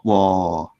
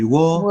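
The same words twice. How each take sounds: First: The syllable is said with a low tone. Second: The syllable is said without any tone. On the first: "with the low tone" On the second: "if it is just W O"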